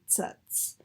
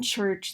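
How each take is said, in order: First: It begins and ends with a ts sound. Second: It begins and ends with a ch sound. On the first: The speaker calls it wrong. "they front them to an alveolar production of a ts" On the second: The speaker calls it right. "Instead of saying the ch in the j"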